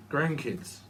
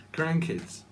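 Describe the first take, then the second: No difference in how they are said.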